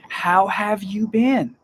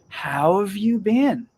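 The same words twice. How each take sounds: First: The H in 'have' is clearly pronounced. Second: The H is dropped, linking 'how' into 'have'. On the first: The speaker is speaking clearly and carefully. "if you're speaking clearly, yes, pronounce the H" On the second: The speaker is talking informally to friends or family. "Take out the H and use the W in how to connect to the av"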